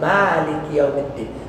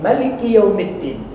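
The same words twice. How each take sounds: First: The vowel after the m is long. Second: The vowel after the m is short. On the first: It means the Owner of the Day of Judgement. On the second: It means the King of the Day of Judgement.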